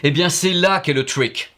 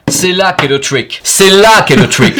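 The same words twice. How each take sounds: First: Said in the usual way. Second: Slow, getting louder into a shout; building to a shout. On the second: Shown as a demonstration. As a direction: hammer it home, louder each time. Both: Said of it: "repeats it louder each time".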